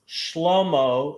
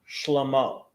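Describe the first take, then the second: First: The stress is on the first syllable. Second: The stress is on the last syllable. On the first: The speaker calls it right. "second to the last" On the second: The speaker calls it wrong. "It's not Shlomo"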